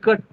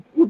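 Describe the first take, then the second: First: The vowel is a short 'uh' sound. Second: The vowel is a long 'oo' sound. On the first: "C यू T कट" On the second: "जैसे बच्चे उच्चारण करते हैं"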